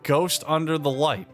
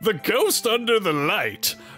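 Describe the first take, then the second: First: It is said in his own normal voice. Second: It is said in a Plankton impression voice.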